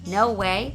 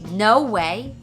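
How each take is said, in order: First: It is said flatly, with little feeling. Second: It is said with strong, shocked feeling. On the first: The speaker calls it wrong. "instead of saying no way" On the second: The speaker calls it right. "put your feelings onto the words"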